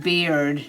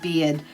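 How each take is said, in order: First: The r sound is clearly pronounced. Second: The r sound is dropped, Boston style. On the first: "I'm saying beard" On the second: "not beard ... my Boston accent is getting really bad"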